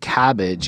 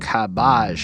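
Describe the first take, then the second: First: Cabbage is pronounced the ordinary way. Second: Cabbage is bent to rhyme with savage. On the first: "the way he says cabbage isn't cabbage" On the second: "it's more like cabbage or whatever, to like match the way he he rhymes everything else"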